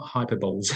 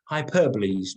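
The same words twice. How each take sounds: First: Hyperboles said as hyper-bowls, like hyper plus bowls; mispronunciation shown. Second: Hyperboles said as hy-PER-bo-lees, four syllables; correct pronunciation. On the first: Teacher showing the wrong way to say it, lightly mocking. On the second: Teacher giving the right way to say it, clearly. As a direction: say hyperboles properly, stress on PER, ending in lees. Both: Shown as a demonstration. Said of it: "not hyperboles".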